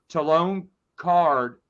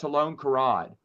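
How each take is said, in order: First: The surname is said as one syllable. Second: The surname is said as two syllables. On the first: The speaker calls it right. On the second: The speaker calls it wrong.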